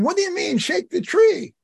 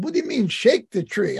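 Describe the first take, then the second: First: Retold shout. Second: Mildly puzzled retold question, close to usual voice; a little confused. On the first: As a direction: shout it up to him in high pitch. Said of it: "So I shouted to him". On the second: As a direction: ask it with a touch of confusion. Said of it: "I was a little confused".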